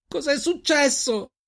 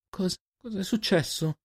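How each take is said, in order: First: Very high, drawn-out cry; anguished scream. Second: High, slow, faltering question; shocked stammer. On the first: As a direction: scream the question in desperation, stretching it out. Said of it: "urlò lei". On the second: Girl finds friend over a body. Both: A narrator's reading.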